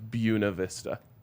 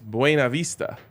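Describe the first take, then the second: First: The name is said with the local pronunciation. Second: The name is said following its spelling. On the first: This is how people who live there say it. "that's the actual way the people that live there call it" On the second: This follows how the name is written. "that is the way it is spelled"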